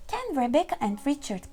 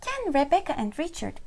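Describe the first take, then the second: No difference in how they are said.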